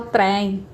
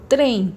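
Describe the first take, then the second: First: Trem with an exaggerated open é, like trém; wrong open vowel. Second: Trem with a closed, inward ê; closed vowel. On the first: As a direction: open the E of trem too wide. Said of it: "Eu não falo trem". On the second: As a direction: keep the E of trem closed, like trêm. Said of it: "É mais pra dentro". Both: Shown as a demonstration.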